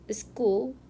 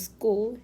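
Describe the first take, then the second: First: An extra vowel comes before the s sound. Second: The word starts directly with the s sound.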